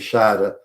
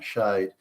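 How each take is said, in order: First: The word ends with an extra vowel sound. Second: The word ends without an extra vowel sound. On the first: This is the older German form. "the uh sound at the end of the E" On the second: This is the modern English form. "it's now shade"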